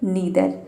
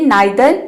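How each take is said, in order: First: The first vowel sounds like 'ee'. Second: The first vowel sounds like 'eye'. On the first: "इसको ई भी pronounce किया जाता है" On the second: "ई आई को क्या प्रोनाउंस कर रहे हैं? आई प्रोनाउंस कर रहे हैं।"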